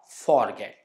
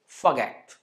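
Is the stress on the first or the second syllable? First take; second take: first; second. First: The stress falls on the first syllable. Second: The stress falls on the second syllable. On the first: The speaker calls it wrong. "not forget" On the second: The speaker calls it right. "it's forget"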